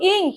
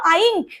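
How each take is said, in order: First: The vowel is a short ih sound. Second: The vowel sounds like the word eye. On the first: The speaker calls it right. "নিশ্চয়ই না, আমি কি বলবো? ইঙ্ক" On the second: The speaker calls it wrong. "আমি কি বলবো আইঙ্ক"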